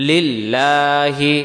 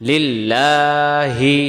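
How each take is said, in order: The two takes are said the same way.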